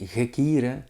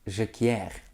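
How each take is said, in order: First: It is said without French pronunciation. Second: It is said with French pronunciation. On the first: The speaker calls it right. "It is Rudy Gekire" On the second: The speaker calls it wrong. "so also in French"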